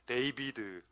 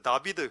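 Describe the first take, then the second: First: The name is said the English way, 'Deibideu'. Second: The name is said the Hebrew way, 'Dabideu'. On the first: The speaker calls it wrong. "영어 발음은 더 촌스러워" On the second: The speaker calls it right. "히브리어로 다윗이 다비드입니다"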